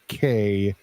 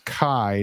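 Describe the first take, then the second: First: The syllable does not rhyme with 'by'. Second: The syllable rhymes with 'by'. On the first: The speaker calls it wrong. "not K" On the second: The speaker calls it right. "It's Kai, ... rhymes with by hour"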